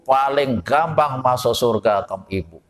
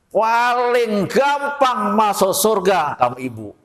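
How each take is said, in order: First: Said in the usual way. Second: Gampang stretched slow and high; emphatic declaration. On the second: Shown as a demonstration. Preacher proclaiming to the mothers that paradise is easy, slow and high. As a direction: proclaim gampang slowly, raised up.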